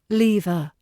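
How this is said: The first vowel is a long E. "The long E sound"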